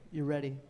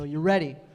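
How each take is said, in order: First: It is said at a quieter volume. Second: It is said at a louder volume.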